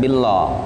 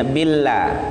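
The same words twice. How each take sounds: First: The word is said with a thick, heavy sound. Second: The word is said with a thin, light sound. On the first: The speaker calls it wrong. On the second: The speaker calls it right. "menjadi tarqiq, menjadi tipis"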